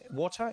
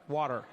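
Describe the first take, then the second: First: It is said in a British accent. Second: It is said in an American accent.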